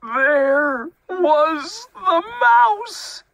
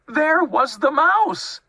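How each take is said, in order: First: Slow, loud, high wail of discovery; horrified reveal. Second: High, loud, quicker outburst; exasperated reveal. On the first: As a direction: stretch every word at top pitch. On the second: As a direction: announce the discovery at high pitch. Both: A narrator's reading.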